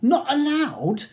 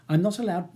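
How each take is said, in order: First: Slow, loud, high incredulous echo; rising temper. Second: Said in the usual way. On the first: A narrator's reading. Ronnie echoing Charles's refusal, temper slipping. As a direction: throw it back slowly, voice rising in anger. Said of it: "his voice rising and his temper slipping dangerously".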